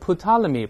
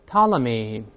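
First: The initial P is pronounced. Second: The initial P is silent. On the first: The speaker calls it wrong. "不要读成Ptolemy，不对" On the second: The speaker calls it right. "前面这个P 不发音"

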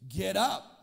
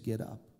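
First: It is said with more force. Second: It is said with little force.

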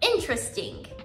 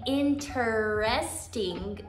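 First: The first E is dropped, giving three syllables. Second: The first E is pronounced as a full syllable. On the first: The speaker calls it right. "We actually omit the sound of the first E" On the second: The speaker calls it wrong. "instead of saying interesting"

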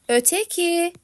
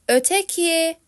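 No difference in how they are said.

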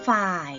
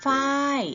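First: The word is said on a low tone. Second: The word is said on a falling tone. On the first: "เติมไม้เอกลงไปจะเป็นฝ่าย" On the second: "เติมไม้โทลงไปจะเป็นฝ้าย"

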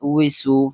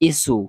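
First: The syllable starts with a w sound. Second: The syllable starts with a bare vowel. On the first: The speaker calls it right. "ওয়াউজের উই" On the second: The speaker calls it wrong. "এগুলা উচ্চারণ হবে না"

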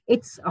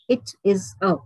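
First: The words are contracted and said quickly. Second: Each word is said separately and clearly. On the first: "when we combine, we pronounce them quickly, crisply" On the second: "So all the three words, they're very clear"

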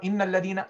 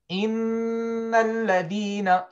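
First: The doubled n is short and not held. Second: The doubled n is held long and nasal. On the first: The speaker calls it wrong. "You don't say" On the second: The speaker calls it right. "Stop on it. Hold on it"

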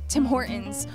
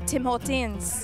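First: The name is said in a casual, relaxed way. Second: The name is said in a careful, fancy way.

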